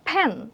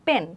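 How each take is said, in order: First: The first p comes with a puff of air. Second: The first p comes without a puff of air. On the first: The speaker calls it right. "যখন আমরা এই যে ফ্যান বলছি তখন কিন্তু আমাদের একটা বাতাসের ঝাপটা আসছে" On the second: The speaker calls it wrong. "পেন বললে কিন্তু জিনিসটা আমাদের কিন্তু অ্যাসপিরেটেড সাউন্ডস আর থাকছে না"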